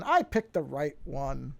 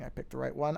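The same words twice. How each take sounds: First: Drawn-out, pleased announcement; slow self-congratulation; pleased confirmation. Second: Said in the usual way. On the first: Real, not acted. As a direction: savor it slowly, as a small win. Confirms the right intro was picked.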